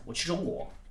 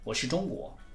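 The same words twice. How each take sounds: Both takes have the same delivery.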